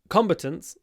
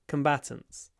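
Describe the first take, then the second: First: It is said with a British pronunciation. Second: It is said with an American pronunciation. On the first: "in British English it's" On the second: "and in American English"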